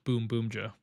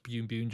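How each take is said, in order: First: The name is said with an 'm' sound, 'boom'. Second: The name is said with an 'n' sound, 'boon'. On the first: The speaker calls it right. "it's pronounced Boom Boomja" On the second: The speaker calls it wrong. "it's not pronounced Bune Bunja"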